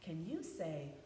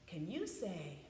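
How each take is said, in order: The two takes are said the same way.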